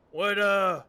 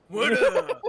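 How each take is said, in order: First: Slipping into a Texan drawl; Texan accent by mistake. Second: Higher, louder character voice restart; character voice, no Texan. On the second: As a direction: reset into the intended character voice. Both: Acted. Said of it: "I'm going Texan, I'm sorry".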